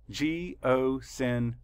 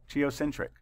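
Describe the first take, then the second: First: Slowed right down, each syllable split apart. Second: Said in the usual way. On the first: Shown as a demonstration. Teacher counting syllables aloud for students, slow and broken up. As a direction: tap out every syllable slowly. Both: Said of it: "Count the syllables".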